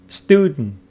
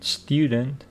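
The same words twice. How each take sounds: First: It is said in an American accent. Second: It is said in a British accent.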